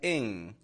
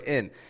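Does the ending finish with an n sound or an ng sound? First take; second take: ng; n. First: The ending finishes with a clear ng sound. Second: The ending finishes with a plain n sound. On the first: It sounds more professional. "pronounce it a little clearer, like ing" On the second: It sounds casual rather than professional. "pronounce it a lot like in, just like a regular in"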